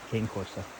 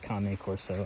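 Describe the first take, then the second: First: 'Cane' is said like the English word. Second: 'Cane' is not said like the English word. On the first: The name is read the way it is spelled. "I say say words the way I see them spelled" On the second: This is how other people may say it. "Sorry if you pronounce it cane corso"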